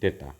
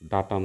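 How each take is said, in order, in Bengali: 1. প্রথম স্বরধ্বনিটি 'ay' এর মতো শোনায়। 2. প্রথম স্বরধ্বনিটি 'ah' এর মতো শোনায়। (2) "উচ্চারণটা ডাটা নয়"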